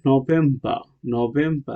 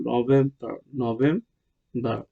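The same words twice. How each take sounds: First: "নভেম্বর" with the final R dropped; British R-less ending on "নভেম্বর"; British pronunciation. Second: "নভেম্বর" with a sounded final R; American R clearly pronounced at the end of "নভেম্বর"; American pronunciation. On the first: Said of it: "ব্রিটিশরা বলে". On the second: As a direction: say "নভেম্বর" the American way, ending in -bar. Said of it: "আর আমেরিকানরা বলে". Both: Shown as a demonstration.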